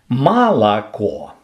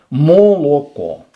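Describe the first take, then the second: First: The unstressed vowels sound like 'a'. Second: Every vowel is a full, clear 'o'. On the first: This is the a-turning regional dialect. "то у вас так называемый акающий говор" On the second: This is the o-keeping regional dialect. "то у вас так называемый окающий говор"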